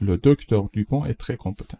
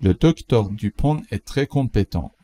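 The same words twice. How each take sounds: First: Said in the usual way. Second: Slow, careful example sentence; slow model read. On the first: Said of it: "repeat at normal speed". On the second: Shown as a demonstration. Teacher reads the example slowly for learners. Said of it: "teacher models slowly".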